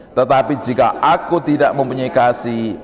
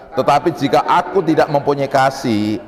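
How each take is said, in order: No difference in how they are said.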